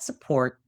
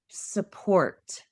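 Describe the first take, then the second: First: The final consonant is dropped or swallowed. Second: The final consonant is clearly pronounced. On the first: The speaker calls it wrong. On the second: The speaker calls it right. "I want to hear that consonant at the end"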